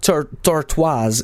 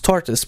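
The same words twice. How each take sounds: First: The word is pronounced in a French style. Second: The word is pronounced in an English style. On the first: The speaker calls it wrong. "that's not Tortoise" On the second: The speaker calls it right. "it's Tortoise"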